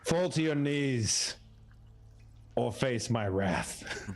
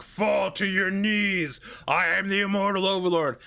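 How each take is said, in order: First: Slow, drawn-out mock decree. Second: Mock overlord. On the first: Paladin commanding kobolds to kneel, slow mock decree. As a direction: hold every word like a pompous paladin. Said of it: "I basically say". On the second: DM mocking the paladin's grand speech, hammed-up. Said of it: "you being like".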